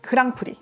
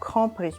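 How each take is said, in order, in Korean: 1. 한국식 발음이에요. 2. 프랑스식 발음이에요.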